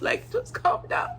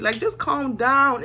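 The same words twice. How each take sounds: First: High breathy whisper "just calm down". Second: Slow, drawn-out calm down. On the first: Speaker to Serenity, pleading in a high whisper. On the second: Speaker telling Serenity, slowly, "Like, just calm down.". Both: Shown as a demonstration.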